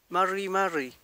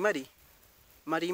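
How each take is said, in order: First: The r is a strong trill. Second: The r is a single quick tap. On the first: "Si fuera con doble R diría" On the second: "si fuera con una R y yo lo leo sería"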